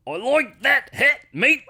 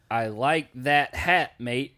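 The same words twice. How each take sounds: First: High, loud, drawn-out Aussie accent; Australian accent. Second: Said in the usual way. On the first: Shown as a demonstration. Co-host demonstrates a trick for getting into the accent, hammed-up Australian. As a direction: exaggerate the Australian vowels, pitched way up. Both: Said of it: "get into the accent is you say".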